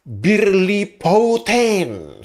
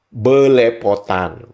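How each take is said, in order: First: The first vowels sound like 'i', with an R. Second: The first vowels sound like 'e', without an R. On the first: It is said without any knowledge from Indonesia. "mereka mengejanya B I R L I P O T A N" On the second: It is said after learning the word from Indonesia. "Kan mereka susah tuh menyebutkan huruf R"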